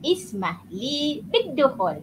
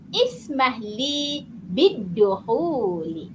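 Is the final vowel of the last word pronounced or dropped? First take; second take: dropped; pronounced. First: The last word ends without its final vowel. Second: The last word ends with a final vowel.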